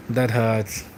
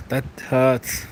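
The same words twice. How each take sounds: The two takes are said the same way.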